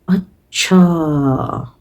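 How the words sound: It sounds slow and thoughtful. I see, all right. "being thoughtful about a certain matter ... express the same word acha in a very different way"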